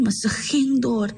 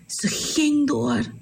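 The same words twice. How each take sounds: First: Said in the usual way. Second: "Ze ging door" drawn out slowly, leaning on "ging"; slow down and stress "ging" to show her grit; a slow, weighty "ging" in "Ze ging door"; slow emphatic repeat. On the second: A narrator's reading.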